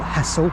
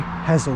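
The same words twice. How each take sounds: First: The middle S sound is strongly emphasized. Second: The middle S sound is light and short. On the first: The speaker calls it wrong. "too much emphasis on the S" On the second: The speaker calls it right. "That's actually how you say it"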